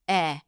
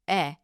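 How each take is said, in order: The two takes are said the same way.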